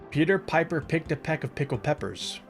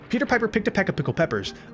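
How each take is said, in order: First: It is said at a normal speed. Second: It is said at a faster speed.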